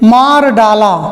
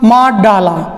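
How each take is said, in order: First: It is said slowly with a clear r sound. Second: It is said quickly with the r absorbed into d.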